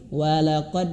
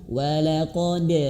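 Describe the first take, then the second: First: The final d is held back without bouncing. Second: The final d is released with a clear bounce. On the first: The speaker calls it wrong. "jangan sampai ada tertahan sedikit ... tidak boleh ya" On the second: The speaker calls it right. "huruf dal itu harus betul-betul pantulkan"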